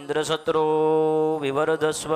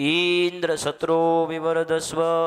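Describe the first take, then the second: First: The word shatro is drawn out longer. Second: The word Indra is drawn out longer. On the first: A son who would kill Indra is wished for. "ઇન્દ્રનું નામ છે એ ટૂંકમાં બોલવાનું છે અને સત્રો છે એ થોડુંક લંબાવીને બોલવાનું છે" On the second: A son who would be killed by Indra is wished for. "ઇન્દ્રને નામને વિસ્તાર કર્યો"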